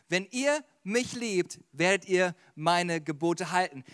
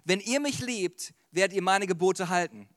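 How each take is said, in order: First: Slow and deliberate, word by word; measured repeat with spaces between phrases; slow, emphatic repeat. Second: Said in the usual way. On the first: Shown as a demonstration. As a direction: spell out the verse slowly. Verse repeated slowly for emphasis.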